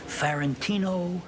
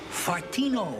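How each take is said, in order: First: The name is said with four full syllables. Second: The name is squeezed into three syllables. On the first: The speaker calls it right. "I love that name" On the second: The speaker calls it wrong. "he couldn't pronounce it. He used to say"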